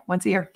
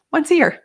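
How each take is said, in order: First: Said in the usual way. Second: Once a year sung out higher and louder; bright repeated once a year; excited emphasis. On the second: Real, not acted. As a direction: lift and punch once a year.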